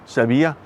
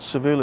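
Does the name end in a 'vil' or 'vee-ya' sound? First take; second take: vee-ya; vil. First: The name ends with a 'vee-ya' sound. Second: The name ends with a short 'vil' sound. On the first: The speaker calls it right. "that's how you pronounce it" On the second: The speaker calls it wrong. "it's not Seville"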